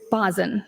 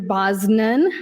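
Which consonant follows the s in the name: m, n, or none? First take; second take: none; n. First: A vowel directly follows the s sound. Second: An n sound follows the s sound. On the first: The speaker calls it right. "but it's Bosin, correct?" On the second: The speaker calls it wrong. "I've heard Senator Bosnan"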